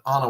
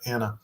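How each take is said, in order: First: The first vowel is an open 'ah' sound. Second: The first vowel is the 'a' of cat. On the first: "I'd written it down ... so it said A N A ... because I wanted it to sound Anna" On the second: "instead of"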